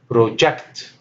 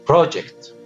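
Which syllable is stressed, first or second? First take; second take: second; first. First: The stress is on the second syllable. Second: The stress is on the first syllable. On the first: It is used as a verb. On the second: It is used as a noun.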